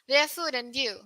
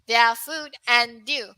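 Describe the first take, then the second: First: The word 'and' is reduced to 'n'. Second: The word 'and' is said in full. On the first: This is how it sounds in natural speech. "for your speaking mode, it will sound smoother" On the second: This is how it sounds when reading aloud. "as we reading"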